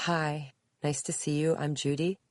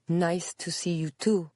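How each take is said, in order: First: Said in the usual way. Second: Put-on higher-pitched Spanish-accented reply. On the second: A narrator's reading. Visitor greets Judy back, in a Spanish accent. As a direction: answer politely in a Spanish accent. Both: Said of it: "answered the woman with a Spanish accent".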